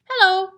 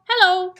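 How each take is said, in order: The two takes are said the same way.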